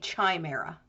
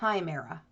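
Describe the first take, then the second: First: The word begins with a soft ch sound. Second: The word begins with a hard k sound. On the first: The speaker calls it wrong. "You don't say chimera" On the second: The speaker calls it right. "it's pronounced K, like a chimera"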